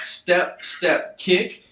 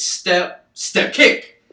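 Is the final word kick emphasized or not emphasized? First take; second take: not emphasized; emphasized. First: The final kick is not emphasized. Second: The final kick is strongly emphasized.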